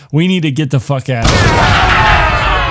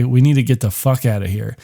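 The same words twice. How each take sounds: First: Loud, slowed, pressing shout; urgent shout. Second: Said in the usual way. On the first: Retold or imitated. Luis urging Bjorn to leave the house now, urgent shout. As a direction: push him out the door with your voice.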